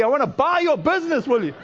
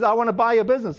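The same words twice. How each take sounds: First: Mock exasperated demand, pitched higher; higher, insistent retold caller; annoyed. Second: Said in the usual way. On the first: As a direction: imitate a fed-up buyer pressing the offer. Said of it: "he's really getting annoyed". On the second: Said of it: "and he says".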